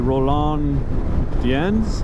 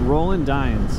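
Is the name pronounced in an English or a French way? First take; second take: French; English. First: The name is pronounced in a French way. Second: The name is pronounced in an English way. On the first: "given that he's French, um, maybe" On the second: "I'm probably pronouncing the last name wrong because I'm not French"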